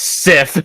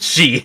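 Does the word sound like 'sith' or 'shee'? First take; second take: sith; shee. First: The word sounds like 'sith', ending in a th sound. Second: The word sounds like 'shee', ending in a vowel. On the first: The speaker calls it wrong. "it's not pronounced Sith" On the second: The speaker calls it right. "Some weird Celtic pronunciation"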